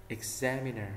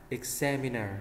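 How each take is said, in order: Both takes have the same delivery.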